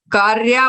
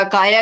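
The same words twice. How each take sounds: First: कार्या with an added r before the ya; wrong take कार्या, extra r; mispronounced kaya. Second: काया plain, no r; correct kaya. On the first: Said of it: "कार्या बोला था". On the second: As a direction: say काया cleanly, long aa twice. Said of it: "काया की जगह". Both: Shown as a demonstration.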